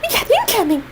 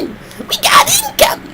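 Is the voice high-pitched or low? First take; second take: high-pitched; low. First: It is said in a high-pitched voice. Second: It is said in a low, gruff voice.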